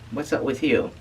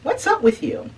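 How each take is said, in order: First: It is said in a flat, neutral tone. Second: It is said with a slightly annoyed attitude. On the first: The speaker calls it wrong. "we don't say" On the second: The speaker calls it right. "we do tend to have a little attitude"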